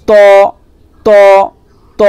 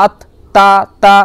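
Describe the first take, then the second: First: ত said with rounded lips and a full, heavy mouth. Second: Said in the usual way. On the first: Shown as a demonstration. Teacher shows the heavy ত with rounded lips. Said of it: "মুখটা গোল করবেন, পুর করবেন". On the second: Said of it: "normal যেরকম হয় আত".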